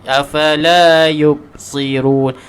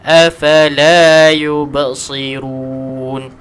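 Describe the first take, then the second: First: The b is closed flat without an echo. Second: The b is released with a bouncing echo. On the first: The speaker calls it wrong. "tak ada qalqalah" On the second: The speaker calls it right. "Huruf ba ni letakkan qalqalah"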